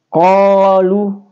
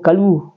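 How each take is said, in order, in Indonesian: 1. Vokal pertama dibaca panjang. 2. Vokal pertama dibaca pendek. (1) "Jadi dia mad tabi jadi panjang" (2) "jadi bukan kalu"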